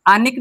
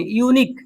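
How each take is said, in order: First: अनिक said with an "अ" start, the mistake; wrong pronunciation. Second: यूनिक said with a clear "यू" start; correct pronunciation. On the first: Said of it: "नहीं पढ़ेंगे". (गलत उच्चारण: अनिक) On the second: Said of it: "अनिक नहीं पढ़ेंगे". (सही उच्चारण: यूनिक, "यू" से शुरू) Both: Shown as a demonstration.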